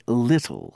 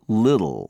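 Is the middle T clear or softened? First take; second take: clear; softened. First: British accent, with a clear T in the middle. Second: American accent, with the T softened toward D. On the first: "a British person will say little" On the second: "but an American says little"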